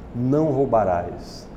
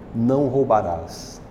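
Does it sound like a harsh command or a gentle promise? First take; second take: promise; promise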